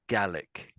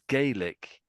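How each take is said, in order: First: The first syllable sounds like 'gar'. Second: The first syllable sounds like 'gay'. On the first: "it's more like garlic"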